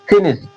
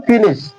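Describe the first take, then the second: First: The first vowel is a short 'i' sound. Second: The first vowel is a short 'i' sound.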